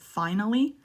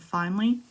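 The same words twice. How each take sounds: First: The word is said with three syllables. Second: The word is said with two syllables. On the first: "it's okay if you say finally" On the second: "two syllables in finally makes you sound more native"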